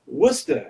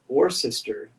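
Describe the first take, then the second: First: Local Massachusetts "WUSS-tah" for Worcester, punched higher; imitated Massachusetts accent. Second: Worcester fully sounded, "WOR-sess-ter"; spelled-out pronunciation. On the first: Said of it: "and they're like". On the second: Shown as a demonstration. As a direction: say Worcester as it is written, three syllables. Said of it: "I would say".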